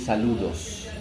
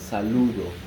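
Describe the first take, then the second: First: The final s sound is pronounced. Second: The final s sound is dropped. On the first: This is the standard form. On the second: This is how Dominican speakers say it.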